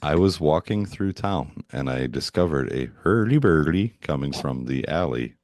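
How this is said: It is said imitating the Swedish Chef's voice.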